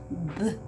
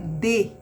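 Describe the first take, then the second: First: It is said as the bare consonant sound. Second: It is said as the full letter name. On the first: "mas o somzinho dela é D" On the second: "O nome dela é D"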